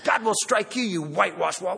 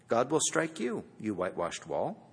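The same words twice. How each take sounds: First: It is said angrily and forcefully. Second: It is said calmly and plainly. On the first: An outburst of indignation. "we feel like Paul says" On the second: A plain statement of judgment. "He might have simply said"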